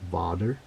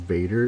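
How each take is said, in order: First: It is said with a Dutch pronunciation. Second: It is said with an English pronunciation. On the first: "it's pronounced differently. I think it's pronounced Vader" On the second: "the name Vader"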